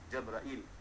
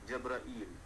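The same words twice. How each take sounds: First: No long vowel comes before the final L. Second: A long ee vowel comes before the final L. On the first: "Jabrail tanpa ada ya" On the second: "Hamzah yang ada rumah, kemudian diikuti ya, diikuti lam"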